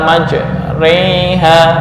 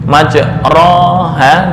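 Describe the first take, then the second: First: The vowel before ha leans toward an e. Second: The vowel before ha is a plain open a.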